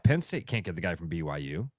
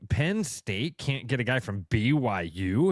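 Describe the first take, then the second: First: It is said in a plain, matter-of-fact tone. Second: It is said in a mocking, scornful tone. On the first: The school is seen as having more resources now. "Now you got to look at it and say, oh yeah" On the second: The school is seen as far beneath the program. "you'd say it with that sort of accent"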